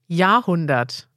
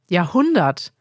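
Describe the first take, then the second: First: The stress is on the first syllable. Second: The stress is on the second syllable. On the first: The speaker calls it wrong. "er versucht, die deutsche Betonung zu nehmen" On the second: The speaker calls it right. "Man betont also die zweite Silbe"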